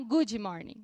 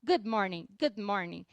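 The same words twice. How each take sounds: First: "good morning" with an ee after "good"; Portuguese-style pronunciation. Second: "good morning" with one-syllable "good"; soft D pronunciation. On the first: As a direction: say "good" as "goo-djee" before "morning". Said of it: "E não good morning". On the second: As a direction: let the d in "good" fall soft, no vowel before "morning". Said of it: "mas ele é bem suave". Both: Shown as a demonstration.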